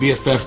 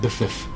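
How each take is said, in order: First: It is spelled out as three separate letters. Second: It is said as one blended word. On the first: "Instead of them saying BFF" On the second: "they pronounce it biffiff"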